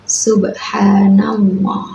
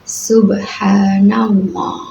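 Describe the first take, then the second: Both takes have the same delivery.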